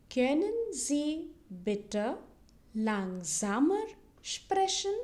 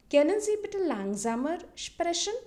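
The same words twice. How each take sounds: First: Very slow German, a pause between words; slow model phrase. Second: Said in the usual way. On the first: Shown as a demonstration. Teacher repeats the request for learners, very slowly. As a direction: stretch "Können Sie bitte langsamer sprechen" word by word. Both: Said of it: "repeat it twice so that you can listen".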